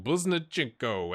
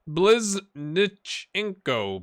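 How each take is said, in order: First: Said in the usual way. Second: "Bliznichenko" said very slowly, syllable by syllable; sounding out a name. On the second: Shown as a demonstration. Commentator struggling with a player's name, "Bliznichenko" drawn out slowly. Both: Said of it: "That's a, that's a mouthful".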